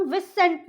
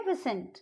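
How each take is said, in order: First: विसेंट said with a full second syllable; विसेंट sounded as spelled; mispronunciation demo. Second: विसेंट said smoothly, silent letter dropped; विसेंट without stressing the s; correct pronunciation demo. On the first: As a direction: wrongly read out every letter of विसेंट. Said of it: "नहीं बोलेंगे". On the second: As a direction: say विसेंट with one soft s. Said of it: "इसको हम बोलेंगे". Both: Shown as a demonstration.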